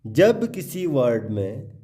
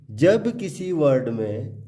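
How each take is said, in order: Both takes have the same delivery.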